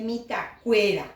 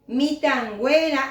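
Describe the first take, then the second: First: The ending begins with a plain k sound. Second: The ending begins with a nasal ng sound. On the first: The speaker calls it wrong. "en vez de" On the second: The speaker calls it right. "en vez de"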